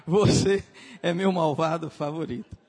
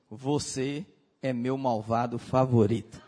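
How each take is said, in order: First: Você punched louder, falling finish; stress on você. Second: Lower, laughing through the words; fond quote with a laugh. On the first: Repeating the line louder with você stressed. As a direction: hit você hard and loud. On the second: He looks at him and says it, laughing. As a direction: tease it out with a chuckle. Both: Retold or imitated. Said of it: "ele olha e diz assim".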